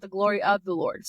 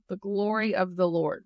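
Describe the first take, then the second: First: "of" picked out in "glory of the Lord"; stress on OF. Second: Said in the usual way. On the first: Shown as a demonstration. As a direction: lean on the word "of" to mark the distinction. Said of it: "Is that the Lord? No, but". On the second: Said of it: "What does that mean?".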